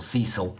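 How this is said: The name is said in an American way.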